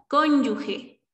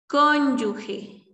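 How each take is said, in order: Both takes have the same delivery.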